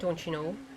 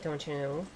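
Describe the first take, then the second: First: It is said in a Wisconsin accent. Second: It is said in an Irish accent.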